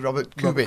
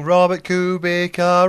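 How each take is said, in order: First: The c in the surname sounds like ts. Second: The c in the surname sounds like k. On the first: The speaker calls it right. "it's actually Robert Kubica" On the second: The speaker calls it wrong. "we sang Robert Kubica"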